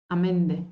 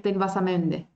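First: Am Ende with a clear break before Ende; glottal stop before vowel. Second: Denn was am Ende with am and Ende run together as amende; wrong linked pronunciation. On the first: Teacher showing learners the correct separation in German. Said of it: "No puedo juntar M con E". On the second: Teacher showing learners the wrong linking in German. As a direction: blend am Ende into one word. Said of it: "Y no decir". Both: Shown as a demonstration.

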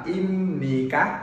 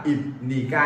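First: Im ní các, slow, final syllable các with a clear k ending; correct pronunciation. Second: Im ní ca, with the final k dropped from ca; wrong pronunciation. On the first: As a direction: say im ní các slowly, ending the last syllable on a crisp k. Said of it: "Mình phát âm là". (phát âm đúng "im ní các", chậm, âm cuối k rõ) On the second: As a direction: say im ní ca with an open ending, no k sound. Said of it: "không phát âm là". (phát âm sai "im ní ca", bỏ âm cuối k) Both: Shown as a demonstration.

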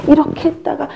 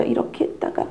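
First: This way, then — pitched up; higher second take. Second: Breathy aside, unvoiced; whispered first take. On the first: Teacher voices the second position switch, higher. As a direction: lift it higher. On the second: Teacher whispers the first position switch. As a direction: whisper this way then. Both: Shown as a demonstration. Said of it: "엄마들이 자꾸 자세를 바꾸세요".

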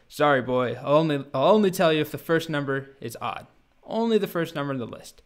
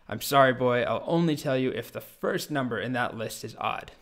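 First: Louder, insistent storybook dragon; mock anger, leaning hard on the refusal; angrier dragon. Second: Put-on mildly irritated dragon refusing a boy; a touch of storybook dragon anger, held in check; angry dragon. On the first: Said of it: "the dragon gets angrier". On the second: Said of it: "the very angry dragon says".

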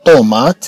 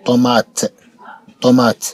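First: Heavy emphatic ط opening طومات; طومات with a dark, full first "ṭo". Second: طومات ending in a light released ت; طومات with a non-emphatic last T; second T as ت. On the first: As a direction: stretch طومات, showing its first T like Arabic ط. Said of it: "الطي الأولى أن نطقت كالطاء". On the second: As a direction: say طومات showing the final T like Arabic ت. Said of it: "الطي الثانية نطقت كالتاء". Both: Shown as a demonstration.

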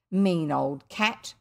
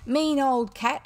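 First: Put-on a slow, lower, mildly raised "Mean old cat"; understated angry yell; mild shout. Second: Put-on "Mean old cat" yelled high and loud; furious child yelling at the cook, high and loud; enraged shout. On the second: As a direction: bark "Mean old cat" like an angry boy general. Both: A narrator's reading. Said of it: "shouted the enraged general".

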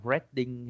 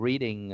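First: "reading" with a short e, like "redding"; mispronounced reading. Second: Said in the usual way. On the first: Shown as a demonstration. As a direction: say "reading" wrongly as "red-ding". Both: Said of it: "đừng có đọc reading".

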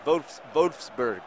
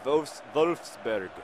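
First: Wolfsburg slow with a German V; drawn-out German Wolfsburg; careful mock German; German pronunciation. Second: Wolfsburg slow with a German V; second slow German try; careful mock German; German pronunciation. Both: Shown as a demonstration. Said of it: "I'm trying to practice my German".

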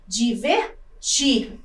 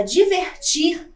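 First: Divertir slowly split, pause before a long TIR; stress on final syllable. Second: Said in the usual way. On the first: Shown as a demonstration. Teacher shows the tonic syllable, Divertir slowed with stressed final TIR. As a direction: break up Divertir and hold TIR. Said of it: "A sílaba tônica aparece na última". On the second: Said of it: "também é uma oxítona".

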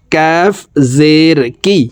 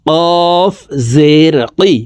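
First: "কাফ" from just ahead of the tongue root, a light k; forward kaf. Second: "কফ" from the very root of the tongue, a deep q; deep qaf. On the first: Teacher contrasting kaf with qaf for pupils. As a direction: place "কাফ জের কি" a little forward on the palate. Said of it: "জিহ্বার গোড়া থেকে একটু আগে বাড়াইয়া". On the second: Teacher contrasting qaf with kaf for pupils. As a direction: push "কফ জের কি" back to the tongue root. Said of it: "কফ হরফ জিহ্বার গোড়া". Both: Shown as a demonstration.

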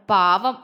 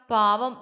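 First: Low, firm, scornful "പാവം"; gritted-teeth scorn. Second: Low, mildly pitying "പാവം"; a touch of sorrow, pitched low; sorrowful pity. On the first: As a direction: throw out "പാവം" low with irritation. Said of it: "അവൻ പല്ല് കടിച്ചു". (പല്ല് കടിച്ച്, പുച്ഛത്തോടെ) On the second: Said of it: "ജ്വാല വിഷമത്തോടെ പറഞ്ഞു". (നേരിയ വിഷമത്തോടെ) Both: A narrator's reading.

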